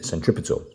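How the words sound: It is said with an American pronunciation.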